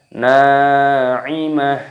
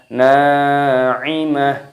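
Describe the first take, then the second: The two takes are said the same way.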